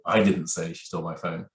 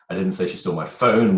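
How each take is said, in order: First: The stress falls on the word I. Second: The stress falls on the word phone. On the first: Someone other than the speaker said it. "which clearly means it wasn't me" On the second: Something other than the phone was stolen. "which infers it could be something else that was stolen"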